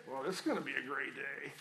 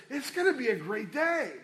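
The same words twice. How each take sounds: First: Low, soft and grudging; glum sarcastic. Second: Bright and upbeat, a touch higher; cheerful upbeat. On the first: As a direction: drag it out like you dread the day. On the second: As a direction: say it like you mean it, cheerful. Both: Shown as a demonstration. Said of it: "let me say this same, same sentence two different ways".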